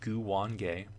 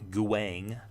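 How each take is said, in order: First: The name is said as Gu-wan-ge. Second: The name is cut to one syllable. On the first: The speaker calls it right. "it is pronounced Guwange" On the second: The speaker calls it wrong. "It's not Guang"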